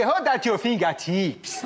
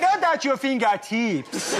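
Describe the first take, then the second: First: Put-on slow, commanding African accent; a stern African teacher ordering pupils, in an African accent. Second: Put-on slow, stern African accent with a laugh; teacher punishing pupils, slow African accent. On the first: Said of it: "he was African". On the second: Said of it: "your racist impersonation".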